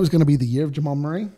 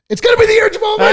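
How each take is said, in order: First: It is said calmly, without extra force. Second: It is said emphatically, almost screamed.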